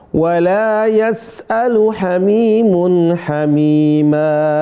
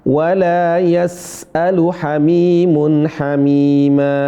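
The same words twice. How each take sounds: No difference in how they are said.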